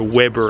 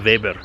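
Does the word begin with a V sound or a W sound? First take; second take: W sound; V sound. First: The word begins with a W sound. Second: The word begins with a V sound. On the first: This is how North Americans say it. "or Weber as you probably call it, over in North America" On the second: This is how it is said locally. "the W's are pronounced like a V, so it's a Weber"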